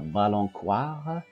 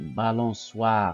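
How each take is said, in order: First: The middle consonant is a K sound. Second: The middle consonant is an S sound. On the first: The speaker calls it wrong. "et non pas balancoire" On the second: The speaker calls it right. "pour prononcer balançoire"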